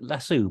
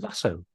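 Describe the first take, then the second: First: The word is said in a British pronunciation. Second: The word is said in an American pronunciation. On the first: The speaker calls it right. "I say lasso" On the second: The speaker calls it wrong. "Americans actually pronounce lasso incorrectly. They pronounce it lasso"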